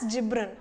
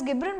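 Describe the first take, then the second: First: The name begins with a j sound. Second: The name begins with a hard g sound. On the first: The speaker calls it right. "It's better to pronounce it as ಜಿಬ್ರನ್" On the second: The speaker calls it wrong. "Some pronounce it as ಗಿಬ್ರನ್"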